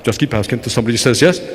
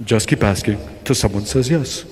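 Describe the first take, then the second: First: Much lower, suave mentor repeating his advice; deep mentor voice. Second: Deep mentor voice. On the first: Mentor Jose repeating his secret to Victor in a deep voice. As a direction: say it again, deep and unbothered. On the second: Mentor Jose giving Victor his secret in a deep voice. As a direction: deliver the secret like a smooth old salesman. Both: Retold or imitated. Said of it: "talk like Ricardo Montalban with this, like, real deep voice".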